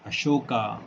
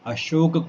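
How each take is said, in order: First: The word ends with a long 'aa' vowel. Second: The word ends on a consonant. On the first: The speaker calls it wrong. "गलत उच्चारण" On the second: The speaker calls it right. "शुद्ध उच्चारण"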